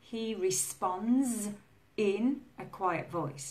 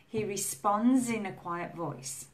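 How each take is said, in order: First: 'Responds' and 'in' are said separately. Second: 'Responds' and 'in' are joined together. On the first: The speaker calls it wrong. "we don't say" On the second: The speaker calls it right. "it sounds like zin ... it's linked to the in"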